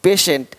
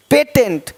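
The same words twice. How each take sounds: First: "पेशेंट" as pay-shent, low and falling; "पेशेंट" dropped lower, sh in the middle. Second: "पेटेंट" as pay-tent; "पेटेंट" misread with t for sh; wrong t sound. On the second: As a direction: say "पेटेंट" with a hard middle t. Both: Shown as a demonstration. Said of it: "पेटेंट नहीं".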